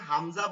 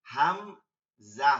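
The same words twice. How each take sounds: First: Said in the usual way. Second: "Hamza" split into a long, loud "হাম", pause, "জা"; very slow, loud two-part "Hamza"; drawn-out syllables. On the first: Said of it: "আমরা যখন হামজা বলতেছি". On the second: Shown as a demonstration. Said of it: "প্রথমে হা লাগতেছে, মিম লাগতেছে". (টেনে, থেমে জোরে "হাম... জা")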